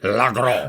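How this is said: It is said with an exaggerated French accent. "Frenchy stink on it"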